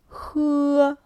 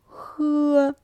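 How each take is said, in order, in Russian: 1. Тон высокий и ровный. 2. Тон высокий и ровный.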